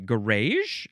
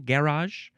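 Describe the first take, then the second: First: It is said in a Canadian accent. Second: It is said in a British accent. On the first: "Canadians, what do they say?" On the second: "The British people like to say garage"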